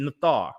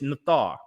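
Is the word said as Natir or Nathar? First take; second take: Nathar; Nathar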